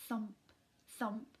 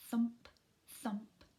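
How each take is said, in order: Both takes have the same delivery.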